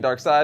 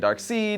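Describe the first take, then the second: First: The second syllable sounds like 'side'. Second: The second syllable sounds like 'seed'. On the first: The speaker calls it right. "which is what I say, and it's the correct pronunciation" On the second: The speaker calls it wrong. "Some people say Darkseid"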